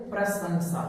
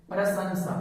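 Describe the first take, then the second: No difference in how they are said.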